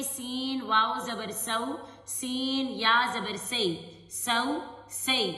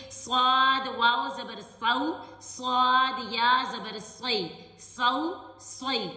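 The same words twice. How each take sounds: First: سو and سی with a thin, whistling S, slow; whistling seen. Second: سو and سوئی with a thick, full, heavy S, slow; heavy swad. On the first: Teacher contrasting a whistling سین with صاد. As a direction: let the س whistle in سو سی. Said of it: "سین میں سٹی کی آواز آئے گی". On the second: Teacher contrasting a heavy صاد with سین. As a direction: fatten the ص in سو سوئی. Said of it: "یعنی موٹا کر کے پڑھتے ہیں". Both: Shown as a demonstration.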